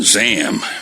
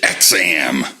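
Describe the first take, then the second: First: The word begins with a 'z' sound. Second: The word begins with an 'eks' sound. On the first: This may be the intended pronunciation. "it might have just been Zam" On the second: This is how the speaker always said it. "I always pronounced it X-am"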